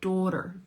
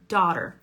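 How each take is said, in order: First: The first vowel is said with rounded lips. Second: The first vowel is an unrounded 'ah' sound. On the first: This is how some other speakers say it. "Look how they're rounding" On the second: This is the speaker's own way of saying it. "This rhymes with father"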